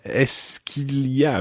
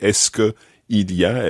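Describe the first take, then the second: First: The words que and il run together. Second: The words que and il are separate. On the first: The speaker calls it right. "it runs together" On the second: The speaker calls it wrong. "you don't say est-ce que il y a"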